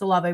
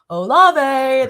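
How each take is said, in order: First: The name is said in a plain, ordinary way. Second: The name is said in a smooth, gliding way. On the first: "we wouldn't say Chris Olave" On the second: "We'd go Olave. ... because like he was always just so smooth"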